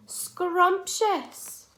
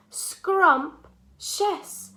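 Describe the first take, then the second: First: "Scrumptious" joined up, high and falling; blended whole word. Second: "Scrumptious" in two high, loud parts with a pause; syllable by syllable. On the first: Teacher models the word for children, "Scrumptious" blended and pitched high. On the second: Teacher confirms two syllables to children, "Scrumptious" broken in two. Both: Shown as a demonstration. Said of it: "How many syllables".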